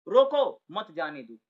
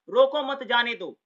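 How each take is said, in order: First: "रोको" punched, then "मत जाने दो" dropping low; pause after रोको. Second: Loud, slow "रोको मत", then "जाने दो"; pause after मत. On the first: ("रोको" पर विराम, फिर नीचे स्वर) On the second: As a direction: keep "रोको मत" together as one command. ("रोको मत" एक साथ, ज़ोर से) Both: Shown as a demonstration. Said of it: "बोलने का तरीका बदल गया".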